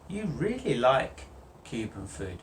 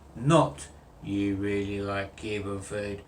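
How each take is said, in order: First: The voice is lively with rising intonation. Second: The voice is flat and robotic throughout. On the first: The speaker shows real feeling. The speaker calls it right. "I want you to have some intonation going up" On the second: The speaker shows no feeling. The speaker calls it wrong. "I am a robot"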